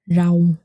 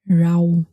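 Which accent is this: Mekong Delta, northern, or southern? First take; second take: southern; southern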